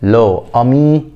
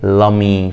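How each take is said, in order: First: The vowel of le is kept, two separate words. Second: The vowel is dropped, words run together. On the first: The speaker calls it wrong. "فبدل لو أمي" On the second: The speaker calls it right. "بقت ايه لامي"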